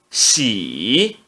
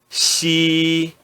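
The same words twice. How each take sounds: First: The pitch dips low then rises. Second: The pitch stays high and level. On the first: "No terceiro tom" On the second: "no primeiro tom"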